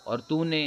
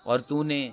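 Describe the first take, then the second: No difference in how they are said.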